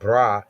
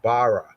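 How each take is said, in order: First: The word is said as one syllable. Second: The word is said as two syllables. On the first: The speaker calls it wrong. "it's not bra" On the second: The speaker calls it right. "it's bara"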